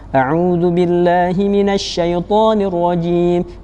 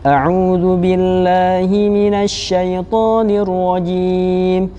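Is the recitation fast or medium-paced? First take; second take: fast; medium. First: It is recited quickly, at a fast pace. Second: It is recited at a moderate, medium pace. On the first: "bacaan cepat dengan tetap menjaga hukum tajwidnya" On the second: "bacaan yang sedang, tidak terlalu cepat dan tidak terlalu lambat"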